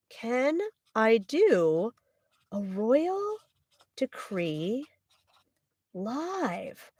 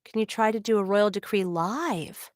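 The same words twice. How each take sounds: First: Very slow, word by word with gaps; drawn-out, softening dictation to self; writing it down. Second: Said in the usual way. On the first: Real, not acted. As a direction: sound it out slowly as you write. Writing the question down while saying it.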